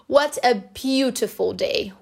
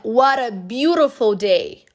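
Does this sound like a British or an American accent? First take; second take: British; American. First: It is said in a British accent. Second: It is said in an American accent.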